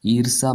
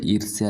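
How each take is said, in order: First: ईर्ष्या as "eer-saa"; wrong form without y. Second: ईर्ष्या as "eer-si-yaa"; correct form with y. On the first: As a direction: drop the y from ईर्ष्या. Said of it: "ऐसे नहीं लिखा जाता है". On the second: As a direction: sound the y before the final vowel of ईर्ष्या. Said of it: "लिखा जाता है". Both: Shown as a demonstration.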